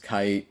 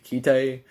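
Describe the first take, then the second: First: The name is said like the English word 'kite'. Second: The name is said with Japanese pronunciation, like 'kai-toh'. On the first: "by dub translations of English, it's Kite" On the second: "the Japanese like form to say it and everything, the pronunciation would be Kite"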